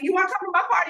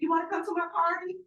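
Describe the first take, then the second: First: It sounds lively and eager. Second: It sounds flat and unconvincing. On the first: The invitation is truly meant. The speaker calls it right. "It's going to be going on" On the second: The invitation is only halfway meant. The speaker calls it wrong. "you don't sound too convincing"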